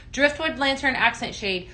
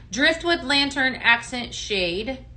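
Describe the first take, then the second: First: Said in the usual way. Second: Slow, deliberate, rising as she reads; slow rising read of a product title. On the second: Real, not acted. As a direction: spell the name out carefully to viewers. Reading product name slowly.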